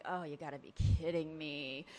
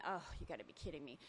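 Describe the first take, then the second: First: Exasperated groan. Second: Quiet, fast muttered thought; inner thought. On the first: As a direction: groan it out in disbelief. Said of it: "And I was like". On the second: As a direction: mutter it under your breath, quickly. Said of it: "and I'm thinking". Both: Retold or imitated.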